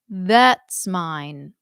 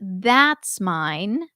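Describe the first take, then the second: First: That's has a narrower vowel, as in bet. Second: That's has a wide open vowel, as in cat. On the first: "Like T H E T S" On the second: "instead of that's mine ... instead of T H A T S"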